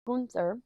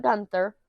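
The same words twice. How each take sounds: First: Gunther with an "oo" vowel, GOON-ther; intended name pronunciation. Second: Gunther with an "uh" vowel, like "gun"; mistaken pronunciation. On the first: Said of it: "his name is now Gunther". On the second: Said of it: "not Gunther". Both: Shown as a demonstration.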